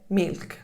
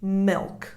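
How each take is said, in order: First: It is said with an Italian accent. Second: It is said with an American accent. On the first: "Now you go to them and you say milk" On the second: "That's the word that an American child is used to"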